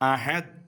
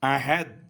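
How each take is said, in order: The two takes are said the same way.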